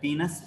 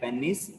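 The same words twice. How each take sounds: First: It is said the Western dialect way. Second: It is said the speaker's usual local way.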